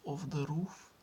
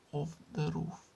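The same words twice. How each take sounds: The two takes are said the same way.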